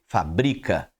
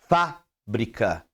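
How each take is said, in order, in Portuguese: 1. O acento não está na primeira sílaba. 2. O acento está na primeira sílaba. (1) "quando você olha para a segunda palavra e não vê o acento" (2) "Quando você vê o acento no Fá, você vai falar fábrica"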